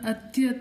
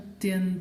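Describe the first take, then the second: First: It is said without an n sound before ta. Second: It is said with an n sound before ta. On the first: The speaker calls it wrong. "ಇದನ್ನು ಅತ್ಯತ ಅಂತ ಓದಬಾರ್ದು" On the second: The speaker calls it right. "ಅತ್ಯಂತ ಅಂತ ಓದಬೇಕು"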